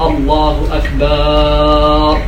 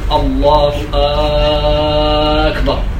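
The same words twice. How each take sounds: First: The vowel after the b sound is lengthened. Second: The opening hamza of the second word is lengthened. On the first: It means plural of drums. "يشبع الفتحة التي على الباء فيجعلها ألف" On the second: It turns the statement into a question. "أو تمد همزة الكلمة الثانية"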